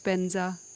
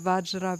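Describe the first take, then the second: First: It begins with a B sound, as Benza. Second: It begins with a V sound, as Vajra.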